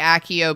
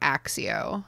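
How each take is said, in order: First: The double C is not said like an X. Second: The double C is said like an X. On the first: This is how it is said in the films. "I tend to say Accio because of the films" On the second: This is how it was said before the films. "I definitely pronounced this letter as if it were an X"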